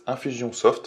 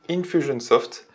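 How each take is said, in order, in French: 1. Le nom se prononce avec des sons français. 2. Le nom se prononce avec des sons anglais.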